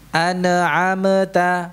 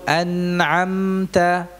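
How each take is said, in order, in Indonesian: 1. Bunyi m-nya dipantulkan. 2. Bunyi m-nya ditahan tanpa pantulan.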